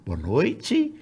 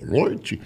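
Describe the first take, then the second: First: The greeting sounds relaxed and informal. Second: The greeting sounds stiff and formal.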